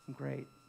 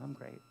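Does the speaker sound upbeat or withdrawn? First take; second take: upbeat; withdrawn. First: It is said in a plain, upbeat way. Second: It is said in a withdrawn, shrinking way.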